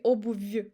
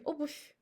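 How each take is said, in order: First: Обувь with a voiced v at the end, obuvu; обувь said wrongly with final v; обувь mispronounced with v. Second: Обувь ending in f, obuf; обувь said right with final f; обувь with voiceless f; correct devoiced ending. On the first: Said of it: "we don't say". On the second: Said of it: "We say". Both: Shown as a demonstration.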